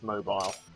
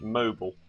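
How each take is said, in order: First: It is said with a British accent. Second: It is said with an American accent.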